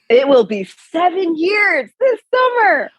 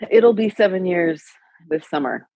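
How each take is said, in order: First: It is said in a more excited tone. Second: It is said in a flat, unexcited tone.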